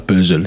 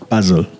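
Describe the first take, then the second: First: The first vowel sounds like French 'eu'. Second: The first vowel sounds like French 'a'. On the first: The speaker calls it wrong. "c'est pas puzzle" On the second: The speaker calls it right. "c'est puzzle"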